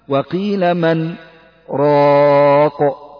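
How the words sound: A brief breathless stop follows 'man' before 'raq'. "وهنا تجد سكتة على من ثم تقول راق"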